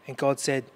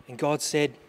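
The two takes are said the same way.

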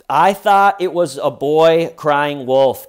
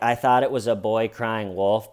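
First: Much louder mock protest; loud, emphatic retold defense; insistent excuse. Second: Said in the usual way. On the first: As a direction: blurt the excuse loudly, imitating her. Suspect's excuse acted out loudly.

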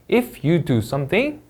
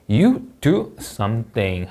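First: Slow "If you do something," with pitch rising on "something"; rising tune. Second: Slow "you do something" with pitch falling at the end; falling tune. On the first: Teacher demonstrating a rising end on a conditional clause. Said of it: "올려 읽고". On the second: Teacher demonstrating a falling end on a finished sentence. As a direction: let "you do something" drop down at the close. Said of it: "하고 내려 읽습니다". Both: Shown as a demonstration.

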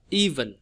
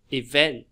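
First: "even" as EE-ven; first-syllable stress. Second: "event" as i-VENT; light first syllable, strong end on "event"; second-syllable stress. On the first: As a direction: lean on the EE of "even", falling after. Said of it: "Nhấn âm một là ý nè". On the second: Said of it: "âm nhấn vào âm thứ hai". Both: Shown as a demonstration.

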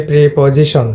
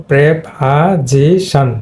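First: Preposition with pree and po; mispronounced preposition. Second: Preposition slowly split, prep-a-zi-shan; correct preposition. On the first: Teacher showing students the mistaken preposition, pree-po sounds. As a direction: say pree-po-zi-shon, the common wrong way. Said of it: "এটা মিসপ্রোনাউন্সিয়েশন করে থাকি". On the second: Teacher modelling correct preposition for students, syllable by slow syllable. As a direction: sound out short prep and weak second syllable. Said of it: "এটা তোমার উচ্চারণ হবে". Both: Shown as a demonstration.

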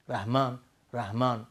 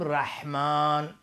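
First: «رحمان» with soft plain h; ha from deep throat. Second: Slow «رحمان» with mid-throat ḥ; correct ha. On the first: Teacher repeats the wrong form, deep-throat ha. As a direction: say «رحمان» short, h from the throat's bottom. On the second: Teacher gives the form we must say, correct ha. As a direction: draw out a strong ḥ in «رحمان». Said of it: "ولی باید بگیم". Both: Shown as a demonstration.

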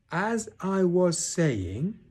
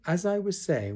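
First: High, loud, very drawn-out words; loud and stern. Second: Said in the usual way. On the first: A narrator's reading. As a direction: stretch each word sternly over the interruption. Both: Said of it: "said Eeyore loudly and sternly".

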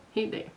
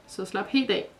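First: Softer, fading echo of helt af; lulling murmur, softer on the repeat; soft mumble. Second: Said in the usual way. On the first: A narrator's reading. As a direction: let helt af trail away to a murmur. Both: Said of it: "mumlede Raijin".

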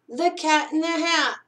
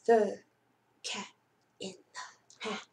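First: Said in the usual way. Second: Dropping to a breathy whisper on "in the Hat"; hushed title. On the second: Acted. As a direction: hush it like a secret for the kids. Dramatic title read before story.

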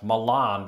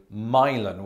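First: Milan with a long ah, "mih-LAHN"; assumed Milan pronunciation. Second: Milan as "MY-lun", stressed first; local Milan pronunciation. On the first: Host showing his wrong guess, Milan as "mih-LAHN". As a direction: say Milan ending in "lahn", stressed last. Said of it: "I assumed it was just pronounced". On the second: Host showing how Tennesseans say it, Milan as "MY-lun". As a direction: say Milan like a boy's name, MY-lun. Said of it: "does sound like an American boy's name". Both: Shown as a demonstration.

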